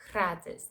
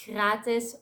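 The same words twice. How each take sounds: First: Gratis with tongue-tip rolled R; Spanish R. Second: Gratis with R made in the throat; French R. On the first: Showing both options, gratis with Spanish R. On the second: Showing both options, gratis with French R. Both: Shown as a demonstration. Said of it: "French R or the Spanish R".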